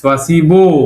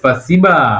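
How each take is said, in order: First: The final vowel sounds like 'o'. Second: The final vowel sounds like 'a'. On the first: The speaker calls it wrong. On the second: The speaker calls it right.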